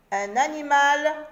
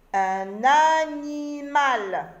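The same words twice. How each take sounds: First: Said in the usual way. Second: Un animal étiré syllabe par syllabe, plus fort; détache chaque syllabe de animal, lentement; très lent, syllabé. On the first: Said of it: "reprise normale". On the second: Shown as a demonstration. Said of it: "mot découpé lentement". (dire « un animal » en syllabes lentes)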